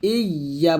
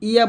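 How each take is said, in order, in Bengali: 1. y ধ্বনিটি দীর্ঘ ও দ্বিগুণ। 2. y ধ্বনিটি ছোট ও একক। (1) "ইয়া বলবেন" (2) "ইয়া বলবেন না"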